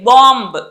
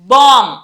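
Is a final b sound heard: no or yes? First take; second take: yes; no. First: The word ends with an audible b. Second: The word ends without a b sound. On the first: The speaker calls it wrong. "బాంబ్ కాదు" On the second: The speaker calls it right. "బాంబ్ అంతే"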